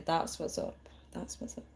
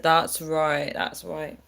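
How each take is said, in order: First: Soft, hushed American imitation of That's what's up; a hint of a chilled American; American accent. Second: Said in the usual way. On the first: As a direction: murmur That's what's up in a laid-back American way. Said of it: "As Americans would say". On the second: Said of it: "Lee said".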